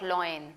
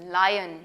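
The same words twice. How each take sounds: First: Loin said as LOYN, the mistaken reading; wrong loin. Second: Lion said as LY-un with a clear ai; correct lion. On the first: Teacher showing kids the wrong reading loin. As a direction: demonstrate the wrong word loin. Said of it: "it's not loin". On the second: Teacher correcting kids' lion to LY-un. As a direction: model the right lion slowly. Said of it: "you don't pronounce it loin". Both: Shown as a demonstration.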